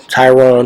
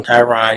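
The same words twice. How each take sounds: First: TYRONE with a long O, as in 'bone'; mispronounced name. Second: Tyron ending in an open 'ON' sound; name variant Tyron. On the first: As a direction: say Tyrone with a clear 'OHN' ending. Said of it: "not being able to pronounce". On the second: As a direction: say Tyron as 'TIE-ron', no long O. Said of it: "you started with a T, it don't matter". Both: Shown as a demonstration.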